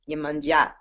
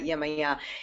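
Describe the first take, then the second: First: The name ends with a 'manja' sound. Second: The name ends with a 'maya' sound. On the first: The speaker calls it right. "it's Yemanja. So that's how they say it" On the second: The speaker calls it wrong. "It's not Yemaya"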